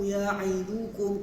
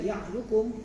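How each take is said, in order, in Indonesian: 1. Dibaca pelan, setiap vokal dibaca penuh. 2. Dibaca cepat, vokal tengah dihilangkan. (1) "kena satu-satu, slow-slow" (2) "kalau kita kalut kita akan baca dengan ya'dukum"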